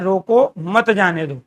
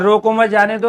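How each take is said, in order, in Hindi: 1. 'roko' के ठीक बाद विराम है। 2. 'mat' के ठीक बाद विराम है। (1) "रोको अर्थात जाने नहीं देना है" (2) "अर्थात छोड़ दो"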